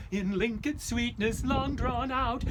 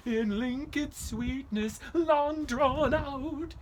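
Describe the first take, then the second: First: Singing lesson line. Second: High, slow, drawn-out singing; sung, a nervous hymn in the dark woods; sung hymn line. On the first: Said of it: "sing after me". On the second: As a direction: sing it to ward off spirits. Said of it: "I would sing". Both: Acted.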